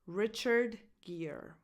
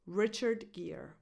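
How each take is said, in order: First: "Richard Gere" said slowly, name by name; careful, spaced-out "Richard Gere"; slow demonstration. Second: Said in the usual way. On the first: Shown as a demonstration. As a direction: slowly model "Richard Gere", stressing the first syllable of "Richard". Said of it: "the stress goes on this first syllable". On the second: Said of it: "find out the correct pronunciation".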